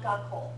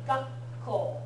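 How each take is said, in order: First: No silent gap comes before the k. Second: A short silent gap comes before the k. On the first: The speaker calls it wrong. "not gakko" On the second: The speaker calls it right. "it's got to be gakko"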